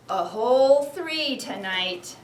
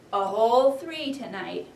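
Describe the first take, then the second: First: Whole stretched out slow and louder; stress on whole. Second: Said in the usual way. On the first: Shown as a demonstration. Teacher rereads the parents' line, stressing whole. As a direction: lean hard on whole, slowly. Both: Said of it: "I'm gonna read that part again".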